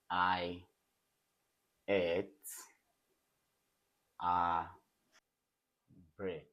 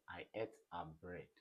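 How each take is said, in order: First: Each word set apart by long pauses. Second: Said in the usual way. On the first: Shown as a demonstration. Teacher giving the class an example sentence, word by word. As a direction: dictate it slowly, one word at a time.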